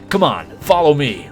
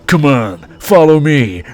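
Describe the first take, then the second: First: It is said in the speaker's normal reading voice. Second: It is said in a gruff Duke Nukem impression.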